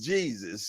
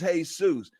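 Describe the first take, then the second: First: It is pronounced the English way, JEE-zus. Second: It is pronounced the Spanish way, hay-SOOS. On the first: It is the name from the Bible. "but in the Bible it's Jesus" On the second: It is a person's given name. "when it's somebody's name is Jesus"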